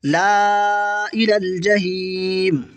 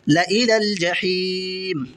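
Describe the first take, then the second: First: ला drawn very long before इलल जहीम; alif wrongly sounded. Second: ला cut to a short "la" before इलल जहीम; silent alif. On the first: Teacher shows alif beside laam misread, long "laa". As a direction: stretch "laa" slowly, then इलल जहीम. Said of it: "अभी अलिफ नहीं पढ़ा जाएगा". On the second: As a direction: keep opening "la" brief, draw out जहीम. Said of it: "इस तरह पढ़ा जाएगा". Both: Shown as a demonstration.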